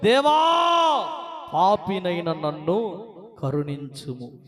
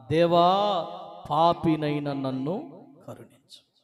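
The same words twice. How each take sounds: First: Slow, pleading cry to God; a sinner's broken plea; humble plea. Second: Slow, low, grieving prayer for mercy; a sinner beating his chest in sorrow; sobbing plea. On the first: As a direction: beg for mercy with head bowed. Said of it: "ఆకాశం వైపు కన్నులెత్తుటకు ధైర్యము చాలక రొమ్ము కొట్టుకొనుచు". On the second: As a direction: weep out the cry for mercy. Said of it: "బోరున ఏడుస్తూ రొమ్ములు కొట్టుకొని". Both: Acted.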